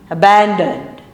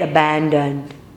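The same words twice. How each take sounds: First: It is said in a higher voice. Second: It is said in a lower, deeper voice.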